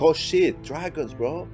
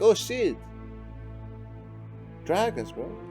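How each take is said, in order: First: It sounds amazed and excited. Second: It sounds flat and unimpressed.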